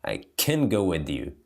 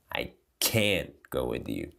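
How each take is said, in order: First: "I can go with you" with weak schwa "can"; "can" unstressed and short; reduced can. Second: "I can't go with you" with "can't" said full as "kænt", lower and quieter. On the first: Teacher contrasting can and can't for students, relaxed. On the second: Teacher contrasting can and can't for students, lower. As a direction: stress the full vowel in "can't". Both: Shown as a demonstration.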